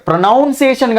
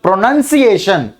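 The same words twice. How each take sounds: First: "ప్రొనౌన్సియేషన్" with NOUN sounded in the middle; wrong pronunciation. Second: "ప్రొనౌన్సియేషన్" slowly, with NUN in the middle; correct pronunciation. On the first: Teacher showing students the mistake to avoid, mispronounced "ప్రొనౌన్సియేషన్" with a "noun" syllable. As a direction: say "ప్రొనౌన్సియేషన్" as pro-NOUN-ciation. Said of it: "ప్రొనౌన్సియేషన్ కాదు". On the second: Teacher correcting students' pronunciation, slow "ప్రొనౌన్సియేషన్" with "nun", never "noun". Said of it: "ఎన్ఓయూఎన్ లేదు అక్కడ". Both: Shown as a demonstration.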